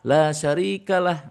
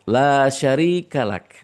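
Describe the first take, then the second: First: The phrase ends with an h sound. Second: The phrase ends with a k sound. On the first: The speaker calls it wrong. "bukan ha" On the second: The speaker calls it right. "Yang betul adalah kap"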